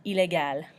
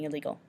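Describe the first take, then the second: First: Illégal as ee-lay-GAL, French style; French pronunciation. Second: Said in the usual way. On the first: Shown as a demonstration. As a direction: say Illégal with French vowels and a clear final L. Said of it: "we do pronounce the L at the end". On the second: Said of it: "meaning illegal".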